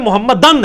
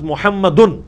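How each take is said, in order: First: The word ends with the vowel a before n. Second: The word ends with the vowel u before n. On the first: The word follows the particle anna. "انا کی وجہ سے پیش زبر میں بدل گیا" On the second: The word is the subject of the sentence. "حالت رفع میں ہوتا ہے لفظ محمدن"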